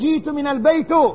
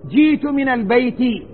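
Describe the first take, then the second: First: The last word ends without an 'i' vowel. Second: The last word ends with an 'i' vowel. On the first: The speaker calls it wrong. "لا تقول" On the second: The speaker calls it right. "بالكسر"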